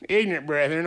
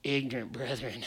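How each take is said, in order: First: Said in the usual way. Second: Low, soft, mocking aside; mock pity. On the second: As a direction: shake your head and mutter it with pity. Mocking the doubting believers.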